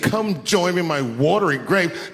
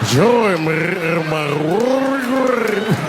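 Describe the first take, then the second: First: It is said in a plain voice. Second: It is said in a rolling, gravelly voice.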